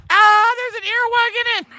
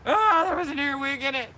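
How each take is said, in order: First: High shocked shriek at a bug; startled shriek. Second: Calmer shocked retelling. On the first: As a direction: jump and shriek in real fright. Startled by earwig in flower. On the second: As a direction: still rattled, higher, half laughing. Repeats it after calming a little. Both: Real, not acted.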